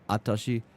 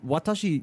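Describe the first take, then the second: First: The word starts without a w sound. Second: The word starts with a clear w sound. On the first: The speaker calls it wrong. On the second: The speaker calls it right.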